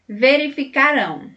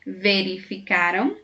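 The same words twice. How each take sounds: First: "verificarão" with RÃO higher and strong; stressed final -ão. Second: "Verificaram" stressed on CA, weak -ram; unstressed final -am. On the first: Teacher comparing future with past, stress on final RÃO in "verificarão". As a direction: push the last syllable RÃO in "verificarão". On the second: Teacher comparing past with future, stress on CA in "Verificaram". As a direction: let the ending of "Verificaram" drop light after CA. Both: Shown as a demonstration. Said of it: "Percebeu a diferença no som do final".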